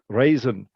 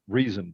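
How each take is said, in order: First: The first vowel sounds like 'ay'. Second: The first vowel sounds like 'ee'. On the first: This is how the word was said long ago. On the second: This is how the word is said today.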